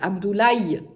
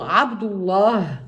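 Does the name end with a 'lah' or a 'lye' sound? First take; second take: lye; lah. First: The name ends with a 'lye' sound. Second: The name ends with a breathy 'lah' sound. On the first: "beaucoup d'Africains le prononcent Abdoulaye" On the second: "le prénom Abdullah, donc où il y a le nom de Allah"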